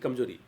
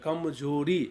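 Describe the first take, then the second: First: The final vowel after r is short. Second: The final vowel after r is long. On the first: The speaker calls it wrong. "न कि" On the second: The speaker calls it right. "र का हम दीर्घ उच्चारण करें"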